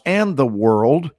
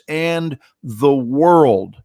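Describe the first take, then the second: First: It is said plainly, without special emphasis. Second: It is said with great, forceful emphasis.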